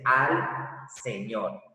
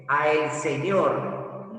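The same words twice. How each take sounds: First: "al señor" joined into one word; "al señor" said smoothly as the right contracted form. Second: "a el señor" said slowly, each word apart; "a el señor" spelled out slow, the wrong unjoined form; separated a el. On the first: Teacher gives the correct form, joined smoothly. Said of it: "sino se dice". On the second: Teacher shows the wrong form, slow and separated. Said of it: "No se puede decir". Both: Shown as a demonstration.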